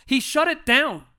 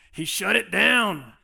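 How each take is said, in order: First: Straight Chicago. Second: Slow Southern drawl on shut it down. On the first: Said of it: "I wanna say with, like, a straight". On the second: Pastor showing Chicago friend a Southern drawl. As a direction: lean into a light Southern drawl. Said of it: "I even added a little southern drawl to that". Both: Shown as a demonstration.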